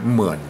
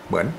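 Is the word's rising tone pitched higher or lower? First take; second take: lower; higher. First: The rising tone is deeper and lower. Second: The rising tone is pitched relatively high. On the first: "ในภาษาละนานั่นน่ะเสียงจัตวายาวอย่างอี้นะจะออกลึกกว่าต่ำกว่า" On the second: "ในภาษาไทยก็อ่านอ่าอ่านทั่วไปก็เหมือน"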